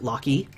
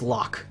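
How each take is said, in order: First: The name is said as two syllables. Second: The name is said as one syllable. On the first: The speaker calls it wrong. "as a kid, pronounce it Lockie" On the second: The speaker calls it right. "Lock is pronounced lock"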